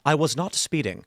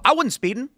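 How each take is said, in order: First: It is said slowly with careful, clear enunciation. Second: It is said quickly with the words run together. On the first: The denial is unmistakable. "you could speak with perfect elocution and enunciation and say" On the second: The denial could be misheard as an admission. "Let's say you say it quickly"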